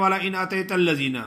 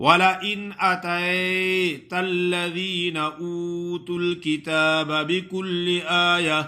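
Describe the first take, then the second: First: أَتَيْتَ rushed, losing the ya leen; wrong rushed demo. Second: أَتَيْتَ with clear ya leen, melodic pace; correct recitation. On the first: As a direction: gabble أَتَيْتَ الَّذِينَ fast, swallowing the ي. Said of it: "کچھ لوگ ایسا پڑھتے ہیں". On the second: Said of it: "یا لین ہے". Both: Shown as a demonstration.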